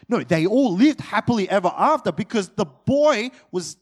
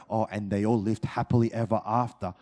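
First: Louder, stressing "lived" in "they all lived happily ever after"; emphatic correction. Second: Lower, quick, mock-breezy "happily ever after"; naive fairy-tale ending. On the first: Real, not acted. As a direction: push back hard, hitting "lived". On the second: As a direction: toss it off like a children's story ending. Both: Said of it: "You can't read the story of Jesus and go".

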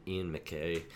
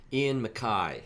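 First: "McKay" said mic-KAY, rhyming with day, softer; McKay pronunciation. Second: "MacKay" said mac-KYE, rhyming with eye; MacKay pronunciation. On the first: Host recalling his old mic-KAY way of saying it. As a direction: say "McKay" ending in a day sound, dropped low. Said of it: "I went through most of my life thinking". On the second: Host giving the name's corrected pronunciation, mac-KYE. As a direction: say "MacKay" ending in an eye sound. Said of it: "thinking it was [name], [name]". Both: Shown as a demonstration.

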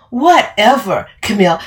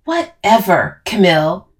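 First: Louder, higher mimicking comeback; mocking echo. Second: Brush-off, falling on whatever; dismissive. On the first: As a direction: throw the brush-off back angrily. Camille throws the words back mockingly. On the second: Acted. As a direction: wave the person away with the word. Dismissive reply in the quarrel.

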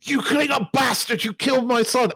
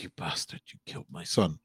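First: Much higher, yelled accusation; raw angry shout. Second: Much lower and softer, half-choked; quiet grief-struck line. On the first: Kirk screaming at the Klingon who killed his son, raw shout. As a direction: let the rage burst out. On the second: Kirk to the Klingon after his son's death, hushed and broken. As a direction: say it low, barely holding in the grief. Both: Retold or imitated. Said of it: "quite good acting by William Shatner".

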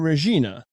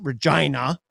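First: "Regina" as ruh-ZHEE-nuh; outsider's mispronunciation. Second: "Regina" as ruh-JYE-nuh; local pronunciation. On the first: Retold or imitated. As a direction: imitate the caller's EE in "Regina". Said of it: "they just don't know, right". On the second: Shown as a demonstration. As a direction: say "Regina" to rhyme with China. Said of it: "we pronounce it Regina".

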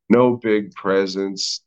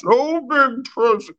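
First: Put-on slow, slurred Spanish accent; drunk Spaniard accent. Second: Very high silly put-on voice; high mock Santa. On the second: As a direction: squeak it out in a goofy voice. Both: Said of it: "like a fucking drunk Spaniard".

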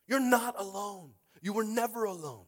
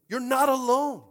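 First: Loud but slowed, leaning on each word; slow it down and land it; slower emphatic repeat. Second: High, loud cry of reassurance; preached shout. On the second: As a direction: shout it over the congregation. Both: Acted. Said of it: "repeats line as contrast".

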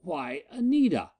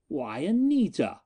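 First: Much higher, stunned cry; utterly thrown by the sight; astonished. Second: Astonished. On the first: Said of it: "all his calm triumph swept away". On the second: Miko's repeated astonishment. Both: Acted.

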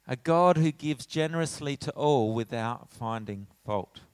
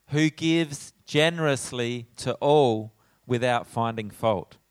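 First: Said in the usual way. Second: Slow, louder, weighty reading of "Who gives generously"; emphatic reading. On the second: Shown as a demonstration. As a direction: lean hard on each word of the verse. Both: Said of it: "That's pretty important".

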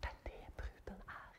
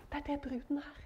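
First: Whispered, soft and intimate. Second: Said in the usual way. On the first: Real, not acted. Preacher whispering to the congregation. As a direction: breathe the words out on no voice. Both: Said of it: "repeated as whisper".

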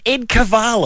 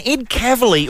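First: "Cavalis" said ka-VAH-lis, pitched up; "Cavalis" with the middle stretched to VAH; mock mispronunciation. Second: Said in the usual way. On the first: Shown as a demonstration. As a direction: deliberately botch the surname as "Cavalis". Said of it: "readers of the Herald Sun in Melbourne know him". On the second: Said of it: "or as readers of the Herald Sun".

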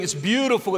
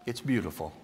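First: High, loud sarcastic gush; mock praise. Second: Beautiful said low and soft, falling gently; mean every word of beautiful, hushed; sincere praise. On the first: Sarcastic: no one would call his state this, gushing. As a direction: say beautiful as if it were absurd. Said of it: "No way would we ever say". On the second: Shown as a demonstration. The psalm's mourning praised, low and tender. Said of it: "But in Psalm fifty-one".

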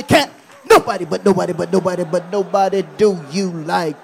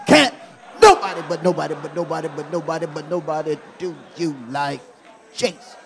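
First: Loud call-and-response chant; shouted call. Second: Fast, laughing repeat with more feeling; with more meaning. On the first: Preacher leading church to shout at somebody, loud. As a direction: shout it to your neighbour. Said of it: "Shout at somebody". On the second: Preacher repeating the chant with more meaning. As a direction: say it again and mean it. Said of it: "say it with a little more meaning". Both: Shown as a demonstration.

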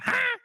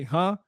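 First: "Huh?" squeaked much higher; squeaky voice. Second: Said in the usual way. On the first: Retold or imitated. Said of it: "squeaky voice with it". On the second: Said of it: "you know how you say".

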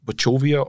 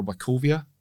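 First: "Wachovia" as wa-CHOH-via, trying it out; tentative pronunciation. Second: "Wachovia" as wa-KOH-via, offered as the other option; alternative pronunciation. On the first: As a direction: say "Wachovia" with a CH as in church. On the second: Contestant offering a second reading, "Wachovia" with a K sound. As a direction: say "Wachovia" with a hard K. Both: Shown as a demonstration. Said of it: "I think it's pronounced Wachovia".

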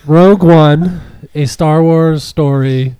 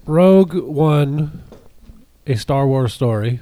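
First: Slow, louder, laughing through it; laughing title read. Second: Slow, grand title announcement; slow title read. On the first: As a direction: restart the title while laughing. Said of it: "My, my tweet is all messed up now". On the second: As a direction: read the title slowly like a trailer. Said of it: "Tyler, what'd you think of Rogue One?". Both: Shown as a demonstration.

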